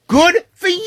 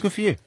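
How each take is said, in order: First: It sounds wildly thrilled and ecstatic. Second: It sounds warm and supportive.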